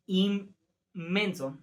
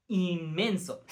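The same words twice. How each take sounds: First: "Inmenso" said slowly with the N blending into M, "immenso"; assimilated nasal, slow. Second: Said in the usual way. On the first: Shown as a demonstration. Teacher demonstrates to students "Inmenso" slowly as "immenso". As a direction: draw out "Inmenso" so the N turns to M. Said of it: "La N se asimila a una M". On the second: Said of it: "Por ejemplo".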